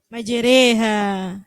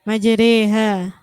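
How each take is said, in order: Both takes have the same delivery.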